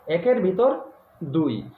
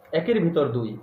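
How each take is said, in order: First: A teacher's pause before the punch word দুই; saying with a pause. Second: Said in the usual way. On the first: Shown as a demonstration. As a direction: lift ভিতর, hold a beat, then drop onto দুই. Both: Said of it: "একটা কথায় বলে না".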